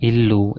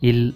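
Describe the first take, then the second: First: The word ends in a full u vowel. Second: The word ends on a bare consonant. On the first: "ತಪ್ಪಾಗಿ ಇಲ್ ಅಥವಾ ಇಲ್ಲು ಎಂದೆಲ್ಲ ಉಚ್ಚರಿಸುತ್ತಾರೆ" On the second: "ತಪ್ಪಾಗಿ ಇಲ್ ಅಥವಾ ಇಲ್ಲು ಎಂದೆಲ್ಲ ಉಚ್ಚರಿಸುತ್ತಾರೆ"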